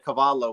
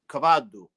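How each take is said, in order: First: It is said in standard Italian pronunciation. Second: It is said in Reggio's Sicilian-like dialect.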